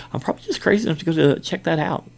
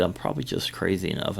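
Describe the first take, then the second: First: Higher, louder, quick retold boast; amused bravado. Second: Said in the usual way. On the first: Guard telling coworker he'll check, amused bravado. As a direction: repeat it with amused, rushed bravado. Repeats his quote, amused at himself.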